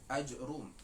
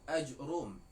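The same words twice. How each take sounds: Both takes have the same delivery.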